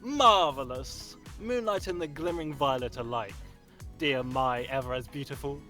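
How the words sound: It is performed in an over-the-top dramatic way.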